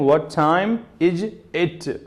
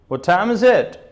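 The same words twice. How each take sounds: First: Each word is said separately with breaks. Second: The words run together as one group. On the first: The speaker calls it wrong. "I'm not saying" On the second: The speaker calls it right. "like this, you have to use a grouping"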